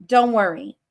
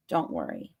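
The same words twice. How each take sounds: First: Said in the usual way. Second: A much lower, softer don't worry; playful deep-voiced reassurance. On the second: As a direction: drop it way down low and soft. Repeating reassurance to viewers.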